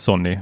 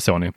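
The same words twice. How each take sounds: First: The n sound is held long, doubled. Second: The n sound is short and single. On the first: This matches how one friend says it. "när jag hänger med dig, Peter, så säger jag nog Sony" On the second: This matches how another friend says it. "Marcus kör i alla fall ett enkel-N"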